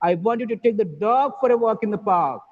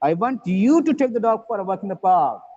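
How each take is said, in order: First: The stress falls on the word dog. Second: The stress falls on the word you. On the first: The dog, not another animal, should go. "the emphasis is on the word dog" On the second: The listener, not somebody else, should do it. "you, not somebody else"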